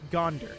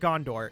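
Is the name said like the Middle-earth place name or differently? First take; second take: differently; Middle-earth. First: It sounds different from the Middle-earth name. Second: It sounds like the Middle-earth place name. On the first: The speaker calls it right. "it's Gondor. This is uh, not Middle-earth" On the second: The speaker calls it wrong. "It's not Gondor"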